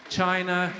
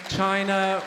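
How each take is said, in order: Both takes have the same delivery.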